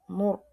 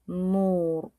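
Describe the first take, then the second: First: The vowel is short and clipped. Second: The vowel is drawn out long. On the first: "C'est comme c'est sec" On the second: "on tire ça avec le ou"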